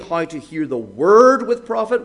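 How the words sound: The word word is stressed. The point is what is to be listened to. "what we're to hear"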